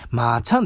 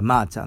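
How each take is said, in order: First: まーちゃん with the pitch peaking late, on ちゃ; different nickname intonation. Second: マーちゃん in the usual, unemphatic nickname tune; her nickname's intonation. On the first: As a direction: lift ちゃ in まーちゃん, then let it fall. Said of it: "イントネーションが違うんですよ". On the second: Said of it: "発音、イントネーションが違うんですよ". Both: Shown as a demonstration.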